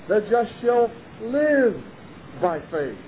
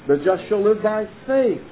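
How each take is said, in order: First: The word live carries the main stress. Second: The word faith carries the main stress. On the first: "guess which word he's going to be emphasizing? No. Live" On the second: The focus is on faith itself. "there he'll be emphasizing a different word. Which word? Faith"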